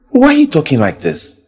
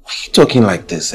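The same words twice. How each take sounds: First: Louder, higher repeat of the question; pressing louder. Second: Said in the usual way. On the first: Acted. Hurt lover pressing his girlfriend for an answer. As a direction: push the question harder.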